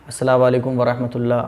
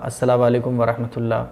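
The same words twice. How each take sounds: Both takes have the same delivery.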